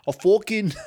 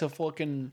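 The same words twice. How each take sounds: First: High, loud New York "fucking", laughing; cracking up in a put-on New York accent. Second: Said in the usual way. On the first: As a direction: lean into a broad New York vowel on "fucking". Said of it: "You, you really went New York right there". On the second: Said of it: "you really went New York".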